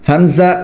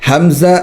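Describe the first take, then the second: Both takes have the same delivery.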